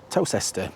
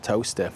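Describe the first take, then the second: First: Every written syllable of the word is pronounced. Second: The word is said like 'toaster'. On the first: This is how the name is written. "it's actually spelled Towcester" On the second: This is how the name is actually said. "but it's pronounced Towcester"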